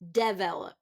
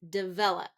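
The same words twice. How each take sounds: First: The stress is on the first syllable. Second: The stress is on the second syllable. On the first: The speaker calls it wrong. "where it's first syllable stress" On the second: The speaker calls it right. "We want second syllable stress"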